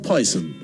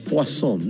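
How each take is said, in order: First: The word is pronounced the English way. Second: The word is pronounced the French way. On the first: "no Poison" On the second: "la vendedora lo pronunciaba Poisson... ciúticamente"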